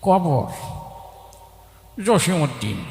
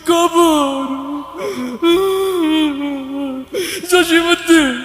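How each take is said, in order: First: It is said like an old man chewing. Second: It is said in a weeping, crying voice. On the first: The reciter is an old man eating betel leaf. "তা মুরব্বী পান খেতে খেতে আসছে, তার আবৃত্তির ঢং ছিল এরকম।" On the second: The reciter is overcome by sad memories. "ও আগেই কান্দা শুরু করে দিছে। তা তার আবৃত্তির ঢং ছিল এরকম।"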